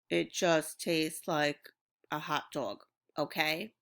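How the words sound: It is read flat, like a robot.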